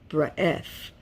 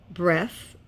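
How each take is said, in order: Both takes have the same delivery.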